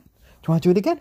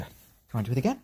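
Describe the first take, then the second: First: "Do you wanna do it again?" asked much higher and louder, thrilled; excited. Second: Said in the usual way. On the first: Real, not acted. Owner urging chick to fly again, high and excited. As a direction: urge the chick on with a high, loud, eager "again". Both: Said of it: "I know you can hear the excitement in my voice".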